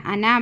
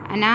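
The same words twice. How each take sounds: First: अना with the final vowel short; अना with no stretch on the ending; correct short reading. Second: अना with a long final आ; अना ending on a stretched vowel; wrongly lengthened. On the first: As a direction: keep the ना of अना brief. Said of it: "बोलकर ही पढ़ना". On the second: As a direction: drag the ना of अना, the mistake to avoid. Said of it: "अना नहीं पढ़ना". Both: Shown as a demonstration.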